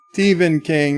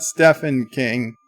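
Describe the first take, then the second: First: Stephen King said as "Steeven", long ee; "Stephen" with a clear v, STEE-ven King; correct pronunciation. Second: Stephen King said as "Steffen", short e with f; "Stephen" with an f sound, STEFF-en King; wrong pronunciation. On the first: Reading the chat's correction, Stephen said as Steeven. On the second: Quoting his own mistake, Stephen said as Steffen. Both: Retold or imitated. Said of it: "Did I pronounce it Stephen King?".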